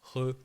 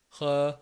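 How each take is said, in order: First: "re" soft and slow, French R. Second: "Re" with a throaty vowel; Chinese re. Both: Shown as a demonstration. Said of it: "et pas re".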